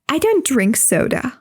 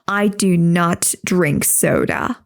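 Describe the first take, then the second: First: The words do not are contracted to don't. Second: The words do not are said in full. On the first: The speaker calls it right. "They say" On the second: The speaker calls it wrong. "They don't say"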